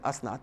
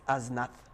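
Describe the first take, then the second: First: The middle consonant is a plain s sound. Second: The middle consonant is a th sound. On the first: This is how the speaker normally says it. "I'm pronouncing it Asnat" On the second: This is the Kurdistani way of saying it. "Kurdistani pronunciation"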